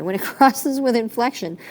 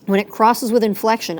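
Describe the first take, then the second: First: A laugh breaking into the restart; laughing through it. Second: Said in the usual way. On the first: Real, not acted. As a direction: restart the phrase with an embarrassed laugh. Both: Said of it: "I'm so sorry".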